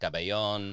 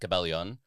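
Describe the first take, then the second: First: The name is said Spanish-style, with a 'yon' ending. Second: The name is said Tagalog-style, with a 'lyon' ending. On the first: "being conquered by the Spanish" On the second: "in Tagalog it would be"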